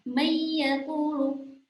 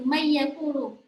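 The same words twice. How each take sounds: First: The nasal is held for one or two beats. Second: It runs straight on with no hold. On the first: The speaker calls it right. "ada sedikit jeda ya, kira-kira satu atau dua ketukan" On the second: The speaker calls it wrong. "tidak langsung may yaqulu"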